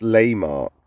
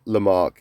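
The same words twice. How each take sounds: First: "Lamarck" with a full first syllable, LAY-mark; corrected pronunciation. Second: "Lamarck" with a weak first syllable, luh-MARK; wrong pronunciation. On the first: Host correcting himself for viewers, "Lamarck" said LAY-mark. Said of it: "so it's pronounced Laymark". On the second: Host showing his earlier mistake, "Lamarck" said luh-MARK. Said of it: "I've actually mispronounced". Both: Shown as a demonstration.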